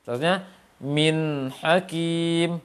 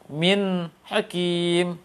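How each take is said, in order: First: The nun flows directly into the ha. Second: The nun is cut off before the ha. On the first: The speaker calls it right. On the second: The speaker calls it wrong. "Atau terputus"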